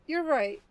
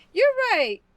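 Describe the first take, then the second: First: Said in the usual way. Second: Loud high exclaim. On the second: Real, not acted.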